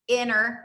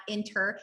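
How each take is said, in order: First: "inner" with a double n and no t; correct pronunciation inner. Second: "inter" with a clear t in the middle; wrong pronunciation inter. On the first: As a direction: say "inner", just the n, no t. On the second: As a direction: say "inter", with a t sound. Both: Shown as a demonstration. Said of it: "It's I N N E R, not inter".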